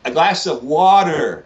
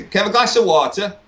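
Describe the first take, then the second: First: Put-on slow, deliberate American-accented water. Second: Put-on water in broad English accent, no final r; higher, polite request in thick Wigan accent; strong English accent. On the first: English guest retrying his diner order, slow American accent. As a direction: spell out water with a hard American r. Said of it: "I'd be like". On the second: Newly arrived guest ordering in US diner, strong English accent. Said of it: "I had a very strong accent".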